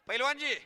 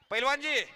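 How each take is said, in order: Both takes have the same delivery.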